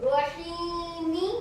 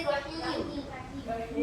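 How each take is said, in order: First: रहीमी drawn out very slowly with a final ee; wrong reading. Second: रहीम stopped on the m with no final vowel, very slow; correct pause form. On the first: Teacher showing students the wrong ending रहीमी, very slow. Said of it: "नहीं पढ़ेंगे". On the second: Teacher showing students the right stop on रहीम, slow and soft. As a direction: close रहीम on a held m, slowly and softly. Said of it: "क्या पढ़ेंगे?". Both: Shown as a demonstration.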